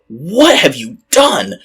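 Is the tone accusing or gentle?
accusing. It is asked in a harsh, accusing tone. The asker is scolding and blaming her. The speaker calls it wrong. "a lot of people look at it and go"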